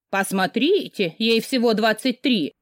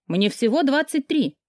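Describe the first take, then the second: First: Slow, drawn-out teasing echo; mocking mimicry. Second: Said in the usual way. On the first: A narrator's reading. Friend parroting her protest about her age, mocking mimicry. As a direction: parrot it back mockingly, dragging the words. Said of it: "перекривляла меня Рина".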